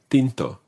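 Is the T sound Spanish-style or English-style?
Spanish-style. The T is soft, tongue between the teeth.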